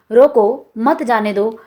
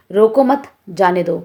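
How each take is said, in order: First: "रोको", clear pause, then "मत जाने दो"; slowly, breaking between रोको and मत; comma after रोको. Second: "रोको मत" together, pause, then "जाने दो"; comma after मत. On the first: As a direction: set रोको apart, keep "मत जाने दो" together. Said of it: "के बाद अल्प विराम". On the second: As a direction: break between मत and जाने. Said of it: "के बाद अल्प विराम चिन्ह". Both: Shown as a demonstration.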